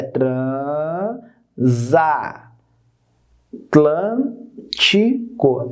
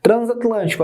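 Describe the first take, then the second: First: "transa- Atlântico" very slowly as tran, za, tlân, ti, co; separado em sílabas. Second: Said in the usual way. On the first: Shown as a demonstration. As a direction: stretch each syllable of "transa- Atlântico" with long gaps: tran, za, tlân, ti, co. ("transa- Atlântico" bem devagar, sílaba por sílaba) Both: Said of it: "como é que fica?".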